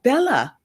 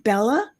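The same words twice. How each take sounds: First: High-pitched call that drops sharply; mild narrated yell. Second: "Bella" rising high at the end as a question; questioning call. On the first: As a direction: call the name out urgently, falling at the end. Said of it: "Nan yells out". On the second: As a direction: call "Bella" uncertainly, pitch climbing. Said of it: "This time it is a question". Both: A narrator's reading.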